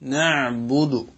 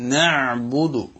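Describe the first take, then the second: No difference in how they are said.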